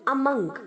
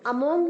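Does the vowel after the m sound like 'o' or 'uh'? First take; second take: uh; o. First: The vowel after m sounds like 'uh'. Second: The vowel after m sounds like 'o'. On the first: The speaker calls it right. "M के आगे जो ओ है वो ए की तरह sound करेंगे" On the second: The speaker calls it wrong. "अधिकतर बच्चे इसे अमोंग प्रोनाउंस करते हैं, अमोंग नहीं"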